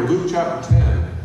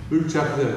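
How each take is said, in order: First: Slow and loud, calling out the reference; loud announcement. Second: Said in the usual way. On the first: Real, not acted. Announcing the scripture passage.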